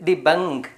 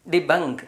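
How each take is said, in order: Both takes have the same delivery.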